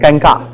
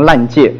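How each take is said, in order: First: The word is said as 'ganga'. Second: The word is said as 'lanjie'. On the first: The speaker calls it right. "很尴尬" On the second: The speaker calls it wrong. "有人不会讲那两个字，一念成烂界"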